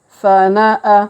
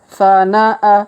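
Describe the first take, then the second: No difference in how they are said.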